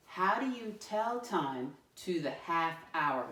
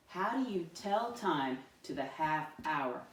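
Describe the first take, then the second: First: Slow, clear reading of the question; slow model read. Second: Said in the usual way. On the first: Shown as a demonstration. Teacher reading the question slowly first, before the class joins. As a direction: read it slowly so kids can follow. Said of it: "Let me read it the first time". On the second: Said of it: "Read it with me this time".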